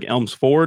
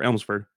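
First: The last syllable has an 'o' vowel. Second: The last syllable has an 'e' vowel. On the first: "like an O" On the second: "or an E"

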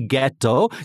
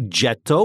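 First: The word begins with a hard G sound. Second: The word begins with a soft G sound. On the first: The speaker calls it right. "has that G sound" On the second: The speaker calls it wrong.

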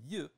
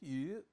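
First: The pitch falls sharply from high to low. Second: The pitch stays high and level throughout. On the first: It is the earlier term, a different word. "rather than fourth tone" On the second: It is the new term, a different word. "that is first tone"

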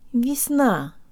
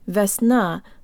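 First: The stress is on the second syllable. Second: The first syllable is emphasized. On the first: The speaker calls it right. "de-emphasize the first syllable" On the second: The speaker calls it wrong. "It's not весна"

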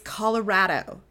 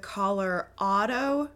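First: The stressed 'ra' vowel sounds like 'rad'. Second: The stressed 'ra' vowel sounds like 'father'. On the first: The speaker is a native of the state. The speaker calls it right. "because the state is rad" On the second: The speaker is not from the state. The speaker calls it wrong. "if you say it like that, natives like me immediately know that you aren't from here"

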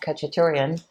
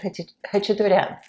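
First: The name is said with plain English sounds. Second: The name is said with a throaty h sound.

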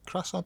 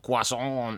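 First: It is said with an English pronunciation. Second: It is said with a French pronunciation. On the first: The speaker calls it right. "that's fine" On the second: The speaker calls it wrong. "you sound like a knobhead"

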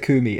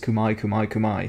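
First: The word ends with an 'ee' sound. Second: The word ends with an 'eye' sound. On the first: This is the familiar, long-used pronunciation. "I've always said Kumi" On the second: This is the pronunciation recently heard as proper. "I've heard the last few days Kumai"

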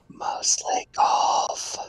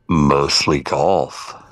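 First: It is said in a soft whisper. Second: It is said in a deep gruff voice.

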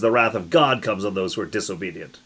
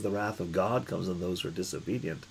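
First: It is read in a forceful, angry way. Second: It is read in a soft, gentle way. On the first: The speaker calls it right. "This is" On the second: The speaker calls it wrong. "No, you don't say wrath in a soft way"

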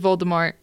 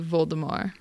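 First: The final T sound is pronounced. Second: The final T sound is silent. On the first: This is how most people say it. "everybody says Voldemort" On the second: This is the French way to say it. "in French, it would be Voldemort"

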